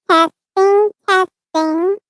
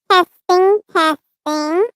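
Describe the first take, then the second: The two takes are said the same way.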